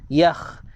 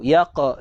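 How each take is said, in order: First: The consonant is a raspy fricative in the throat. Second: The consonant is a hard stop in the throat. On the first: The speaker calls it right. "kita nak yakh" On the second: The speaker calls it wrong. "dia jadi huruf qaf"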